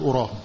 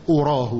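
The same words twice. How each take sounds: First: "أراه" said as ara, a vowel first. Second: "أراه" said as urah, u vowel first. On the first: Teacher giving the correct reading. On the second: Teacher contrasting urah. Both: Shown as a demonstration. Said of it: "وليست".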